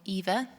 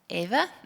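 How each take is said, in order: First: The name is said the British English way. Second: The name is said in a non-British way.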